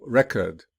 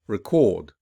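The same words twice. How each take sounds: First: "record" with the first syllable punched, falling away; stress on first syllable. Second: "record" with a loud, punched second syllable; stress on second syllable. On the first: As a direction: noun form, hit the start of "record". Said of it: "the noun will be". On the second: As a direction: verb form, weak start, hit the end of "record". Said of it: "whereas the verb will be". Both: Shown as a demonstration.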